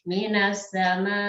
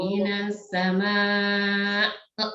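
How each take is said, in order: First: The final vowel is short and cut off. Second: The final vowel is long, ending in a glottal stop. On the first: The speaker calls it wrong. "kalau cuman minas sama itu masih kurang" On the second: The speaker calls it right. "harus minas sama uh, nya itu harus kedengaran"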